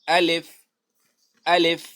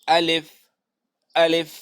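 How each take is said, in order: The two takes are said the same way.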